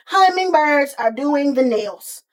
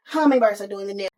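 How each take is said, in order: First: "Hummingbirds are doing the nails" loud, slow and spaced out; emphatic reveal. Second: Said in the usual way. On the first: Real, not acted. Telling who's doing their nails, "Hummingbirds are doing the nails" slowly emphasized. Stressing an absurd reveal, then repeating.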